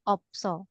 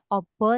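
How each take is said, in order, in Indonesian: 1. Ada bunyi 's' dalam kata ini. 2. Tidak ada bunyi 's' dalam kata ini. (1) "Siutnya jadi kebaca" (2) "bukan dibaca obo"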